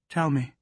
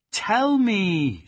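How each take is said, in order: First: Higher pleading; imploring. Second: Much higher, louder pleading Tell; desperate imploring cry. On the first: Plaxi begging the silent dog to speak. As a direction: beg him to answer. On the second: Plaxi crying out for the silent dog to speak. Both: Acted. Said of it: "she implored".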